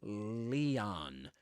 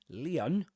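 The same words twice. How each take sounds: First: The last syllable has a full vowel. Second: The last syllable ends in a weak schwa. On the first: "in American English, usually" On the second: "with a schwa at the end"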